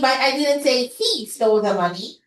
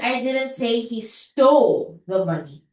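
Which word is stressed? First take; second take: he; stole. First: The word he carries the stress. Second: The word stole carries the stress. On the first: Someone else took the money. "nilagay ko yung stress sa fourth word" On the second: He may have only borrowed it. "Baka hiniram lang naman niya"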